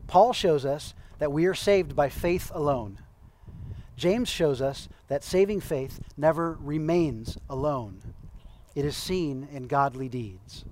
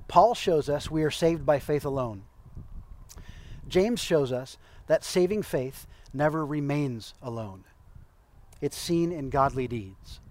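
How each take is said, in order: First: Slow down and let each clause land; slower, weighty reread. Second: Said in the usual way. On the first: Shown as a demonstration. Preacher rereading a quote slowly because it's important. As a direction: read it again slowly, as if underlining it. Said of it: "I'm gonna read that again 'cause it's important". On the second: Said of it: "I'm gonna read that again".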